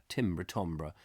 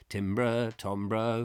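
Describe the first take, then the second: First: "timbre" first as TIM-bruh then as TAM-bruh; low, musing "timbre, timbre" comparing vowels; timbre both ways. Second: "Timbre" with short i then "timbre" as TAM-bruh; musing over how to say "timbre"; timbre both ways. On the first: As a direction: try "timbre" with short i, then with broad a. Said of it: "Is it timbre?". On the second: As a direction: alternate the vowel in "timbre". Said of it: "who really knows?". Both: Shown as a demonstration.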